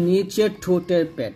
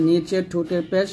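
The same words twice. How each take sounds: The two takes are said the same way.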